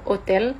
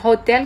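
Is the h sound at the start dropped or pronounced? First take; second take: dropped; pronounced. First: The h at the start is silent. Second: The h at the start is clearly pronounced. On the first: "gak ada haknya lagi. ... kita bilang hotel" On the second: "Kita gak bilang hotel"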